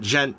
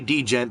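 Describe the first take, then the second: First: It starts directly with the J sound. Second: An extra D sound comes before gent. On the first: The speaker calls it right. "it's pronounced gent. Just like that" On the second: The speaker calls it wrong. "Don't say D-gent"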